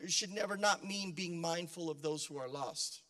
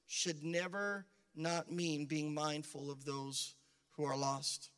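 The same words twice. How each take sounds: First: The sentence is spoken at a quicker pace. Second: The sentence is spoken at a slower pace.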